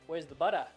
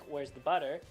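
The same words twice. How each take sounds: First: The word ends with a plain uh sound. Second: The word ends with an r-coloured er sound. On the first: The speaker calls it right. "we're going to change that to an uh" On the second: The speaker calls it wrong. "with the er"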